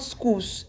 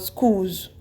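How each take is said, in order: First: The word ends with a hissing s sound. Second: The word ends with a buzzing z sound. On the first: The speaker calls it wrong. "not schools" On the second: The speaker calls it right. "but schools"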